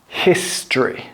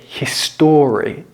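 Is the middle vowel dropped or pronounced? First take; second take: dropped; pronounced. First: The middle vowel is dropped entirely. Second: The middle vowel is pronounced in full. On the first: The speaker calls it right. "an O from history" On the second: The speaker calls it wrong. "Don't pronounce it history"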